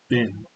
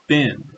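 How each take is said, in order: First: The word rhymes with Ben. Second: The word rhymes with bin. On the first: "they're going to say it as Ben" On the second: "Kind of sounds like B I N"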